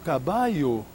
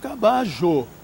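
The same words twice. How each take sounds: First: It is said with another Latin American accent. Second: It is said with an Argentine Spanish accent. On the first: "em alguns países hispano-americanos dirão" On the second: "Os argentinos dirão"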